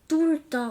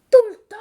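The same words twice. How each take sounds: First: A touch of a know-it-all, firm and final; lightly voiced girl laying down the facts; with authority. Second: Much higher and louder, outraged disbelief; a jealous girl hearing her sweetheart is taken, loud and high; shocked exclamation. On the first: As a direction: state it like the one in charge. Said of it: "répond Léna avec autorité". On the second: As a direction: shriek it back in jealous shock. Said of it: "s'exclame Julie". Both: A narrator's reading.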